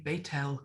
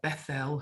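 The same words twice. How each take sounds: First: The first syllable sounds like 'Beit'. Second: The first syllable sounds like 'Beth'. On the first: This is the Hebrew form of the name. "but it would be Bethel" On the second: This is the English form of the name. "we talk about Bethel"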